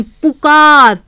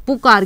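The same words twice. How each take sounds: First: पुकार said with a long ऊ, पूकार; the mistaken पुकार with a stretched first vowel; wrong pronunciation. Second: पुकार said with a short उ, lower in pitch; the correct पुकार with a quick short first vowel; right pronunciation. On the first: Teacher to pupils, showing the wrong पुकार with a long ऊ. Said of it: "या फिर ऐसे बोलते हैं". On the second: Teacher to pupils, correcting to a short उ in पुकार. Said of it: "नहीं, पुकार". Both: Shown as a demonstration.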